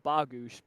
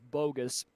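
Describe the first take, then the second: First: The name is said with Polish sounds. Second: The name sounds like the English word bogus. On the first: This is the original Polish pronunciation. "it's a Polish last name, so it's supposed to be pronounced Bogusz" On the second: This is how everyone says the name. "everybody pronounced it as bogus"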